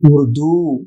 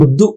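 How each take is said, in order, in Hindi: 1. अंतिम स्वर दीर्घ बोला जाता है। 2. अंतिम स्वर ह्रस्व बोला जाता है। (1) "दीर्घ होना चाहिए" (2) "उर्दू गलत है"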